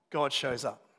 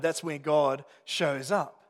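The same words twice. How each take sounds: First: Said in the usual way. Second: "God shows up" drawn out slowly, each word weighted; slow emphatic refrain. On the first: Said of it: "sermon refrain". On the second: Shown as a demonstration. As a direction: land "God shows up" slowly as the key point. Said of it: "sermon refrain repeated slower".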